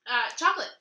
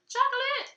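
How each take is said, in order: First: Said in the usual way. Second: Chocolate! sung out much higher and louder; chocolate exclaimed high. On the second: Shown as a demonstration. Knitter shows the Norwegian chocolate, crowing its name. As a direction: crow the word Chocolate with glee. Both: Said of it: "how you say it".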